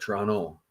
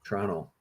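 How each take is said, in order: First: It is said the way eastern Canadians say it. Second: The same.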